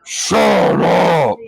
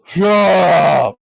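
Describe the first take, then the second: First: Deep, booming giant shout, much lower; a hill giant bellowing down at squabbling goblins; giant's shout. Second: Loud shout, a touch louder; giant yelling. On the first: Giant inside the gate yelling at goblins, deep and booming. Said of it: "You hear in giant". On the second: Giant shouting again at the quarrelling goblins, loud. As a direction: bark it at the noisy goblins. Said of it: "As you hear this thing yell". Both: Acted.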